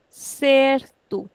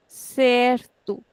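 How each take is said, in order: Both takes have the same delivery.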